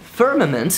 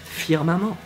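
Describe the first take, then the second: First: English pronunciation, with the final T sounded. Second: French pronunciation, French R and no final T. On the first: "Just go with firmament" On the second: "do the French R and remove the T at the end"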